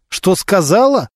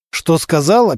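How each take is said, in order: First: Slow, higher echoed question, mildly angry; rising anger. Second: Understated echoed question; asking back. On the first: Suspect repeating the investigator's question, anger building. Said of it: "как будто он собирался зарычать". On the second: Suspect echoing the investigator's question, asking back. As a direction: ask it back, only slightly raised. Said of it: "переспросил Анатолий". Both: A narrator's reading.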